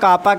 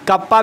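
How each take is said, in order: First: Long first vowel, then a single p sound. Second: Short first vowel, then a doubled p sound. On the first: "या कापा कह सकते हो" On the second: "कप्पा भी कह सकते हो"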